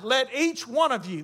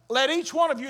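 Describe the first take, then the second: First: Said in the usual way. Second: "one" leaned on, each person singled out; stress on one. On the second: Shown as a demonstration. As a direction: press the word "one" hard. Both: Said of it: "emphatic position of the Greek language".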